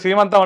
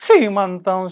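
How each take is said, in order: First: The word is said plainly without added breathiness. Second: Each syllable carries an added breathy h sound. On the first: This is the ordinary way of saying it. "మామూలుగా సీమంతం అంటాం కదా" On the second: This imitates how a particular community speaks. "ప్రతి అక్షరంలో ఆ 'హ' కలుస్తుంది వాళ్ళకి"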